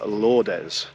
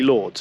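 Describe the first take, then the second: First: A final vowel sound is pronounced at the end. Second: The final E is silent, no ending vowel. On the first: The speaker calls it wrong. "which I was calling Lourdes" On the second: The speaker calls it right. "pronounced simply Lords, it's a silent E"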